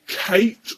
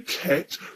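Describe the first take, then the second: First: The vowel is a long 'ay' sound. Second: The vowel is a short flat 'a' sound. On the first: "You can either say Kate" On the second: "don't say cat, because that's the original word"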